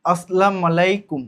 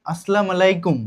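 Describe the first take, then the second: First: আসসালামু আলাইকুম said slowly and carefully; careful pronunciation attempt. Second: আসসালামু আলাইকুম run together more smoothly; quicker pronunciation attempt. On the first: (আসসালামু আলাইকুম ধীরে, সাবধানে উচ্চারণ) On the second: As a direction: say আসসালামু আলাইকুম as one connected greeting. (আসসালামু আলাইকুম একটানে উচ্চারণ) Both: Shown as a demonstration. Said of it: "আমার উচ্চারণটা ঠিক হচ্ছে কিনা".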